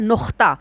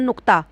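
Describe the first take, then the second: First: The middle consonant comes out as a raspy kh. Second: The middle consonant is a plain stop without rasp.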